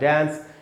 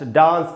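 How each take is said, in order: First: It is said in an American accent. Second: It is said in a British accent.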